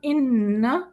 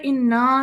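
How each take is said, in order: First: The word ends on a short n sound. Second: The word ends with a lengthened vowel after n. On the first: The speaker calls it right. "नून को हम नहीं खींच रहे" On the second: The speaker calls it wrong. "इन्ना नहीं पढ़ेंगे हम"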